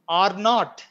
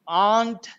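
First: It is said as two full words. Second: It is said as one contracted syllable.

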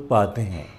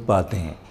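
No difference in how they are said.

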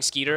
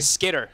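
First: The first vowel is a long 'ee' sound. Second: The first vowel is a short 'i' sound. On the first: The speaker calls it wrong. "I keep saying Skeeter" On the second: The speaker calls it right. "I'm going to say it right today"

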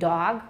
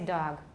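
First: The d is fully voiced. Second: The d is voiceless. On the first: "Instead of saying" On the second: "we say"

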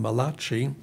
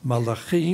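First: The name is pronounced like an Italian word. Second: The name is pronounced the Hebrew way. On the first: The speaker calls it wrong. "Some people think he was an Italian prophet. They call him Malachi. It's not Malachi" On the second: The speaker calls it right. "In Hebrew, it's Malachi"

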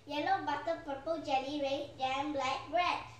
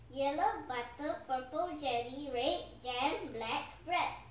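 First: It is said quickly. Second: It is said at a slow, normal pace.

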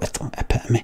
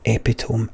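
First: It is said the usual, standard way. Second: It is read literally, the way it looks. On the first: The speaker calls it right. "and then I go, epitome" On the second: The speaker calls it wrong. "the first time I see the word epitome, I always think epitome"

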